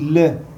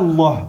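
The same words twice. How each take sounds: First: The L is light and thin. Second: The L is heavy and full. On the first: The speaker calls it right. "on dit Allah" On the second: The speaker calls it wrong. "on ne dit pas Allah"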